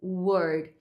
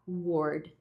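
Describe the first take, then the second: First: "word" with a relaxed uh vowel; unrounded, loose vowel in "word". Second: "word" with over-rounded lips; tense, rounded vowel in "word"; wrong "word". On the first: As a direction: model "word" with an uh sound. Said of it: "é mais pro som do a". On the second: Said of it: "esse arredondamento de lábios". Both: Shown as a demonstration.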